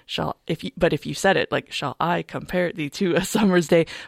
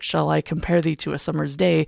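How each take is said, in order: First: Every second syllable gets a strong, regular beat. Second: The stresses follow natural speech with ebb and flow. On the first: The speaker calls it wrong. "you can really hear the iambic pentameter with like" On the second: The speaker calls it right. "But you don't necessarily read it like that. You read it like"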